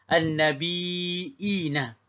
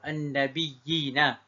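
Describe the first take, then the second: First: A glottal stop is heard in the middle. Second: A doubled y sound, with no glottal stop. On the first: "baca dengan hamzah di tengah-tengah" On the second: "dia masukkan ya yang pertama ke dalam ya yang kedua"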